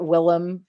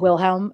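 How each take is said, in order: First: The name is said without the middle h. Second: The name is said with the middle h. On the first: "I pronounce it Willem" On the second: "the audiobook pronounces it Wilhelm"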